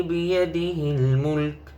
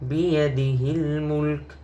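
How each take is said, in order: First: The phrase ends on the bare k consonant. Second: The phrase ends on the bare k consonant.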